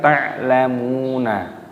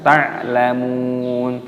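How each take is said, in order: First: The word ends with an added vowel after n. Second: The word ends on a stopped n sound. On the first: The speaker calls it wrong. "bukan ta'lamuna" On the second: The speaker calls it right. "Jadi cara membacanya dibaca ta'lamun"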